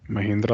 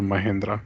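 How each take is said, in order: First: Mahindra with "hin" in the middle; Mahindra, middle vowel as in "hint"; "hin" pronunciation. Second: Mahindra said as "ma-HEN-dra"; Mahindra, middle vowel as in "hen"; "hen" pronunciation. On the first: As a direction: say Mahindra with a short i, "ma-HIN-dra". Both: Shown as a demonstration. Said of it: "I'm not sure".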